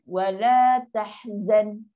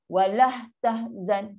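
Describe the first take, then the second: First: The vowel is long with no h added. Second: An h sound is added after the vowel. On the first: The speaker calls it right. "yang ni dua kat" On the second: The speaker calls it wrong. "Tambah ha pula ke sini"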